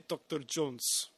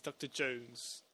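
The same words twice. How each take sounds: First: "Doctor Jones" slow, with a Russian accent. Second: "Doctor Jones" slow and softer, Russian with British vowels; British-slipping Russian accent. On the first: Showing how Russians say the name, slow Russian accent. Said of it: "The Russians would say". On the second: Contrasting Cate Blanchett's take, soft and slow with British vowels. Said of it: "but she says". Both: Shown as a demonstration.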